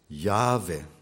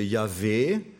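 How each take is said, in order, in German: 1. Die Betonung liegt auf der ersten Silbe. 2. Die Betonung liegt auf der letzten Silbe.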